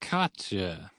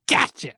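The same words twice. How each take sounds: First: Softer, understated mock "gotcha"; nerdy sidekicks. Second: Higher-pitched mock pounce; lead vampire. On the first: Werewolf and fox chiming in, softly imitated. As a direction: drop it softly, imitating the nerds. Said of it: "they're like". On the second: Lead vampire catching Pinocchio out, higher-pitched exclamation. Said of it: "the lead vampire is like".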